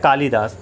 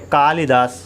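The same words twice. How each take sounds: First: The second syllable has a long vowel. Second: The second syllable has a short vowel. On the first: The speaker calls it wrong. "हम कहते तो हैं कालिदास, लेकिन कालिदास शुद्ध उच्चारण नहीं है" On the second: The speaker calls it right. "कालिदास शुद्ध उच्चारण है"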